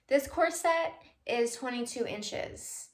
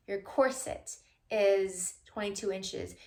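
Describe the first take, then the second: First: "corset" said slowly as cor-SET; slow demo with "corset" stressed on SET; stress on second syllable. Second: "corset" said slowly as COR-sit; slow correction with "corset" stressed on COR; stress on first syllable. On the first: Shown as a demonstration. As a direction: lean on the end of "corset". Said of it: "emphasis or the accent on the second syllable". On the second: Retold or imitated. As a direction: lean on the start of "corset". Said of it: "Putting the emphasis on the first syllable".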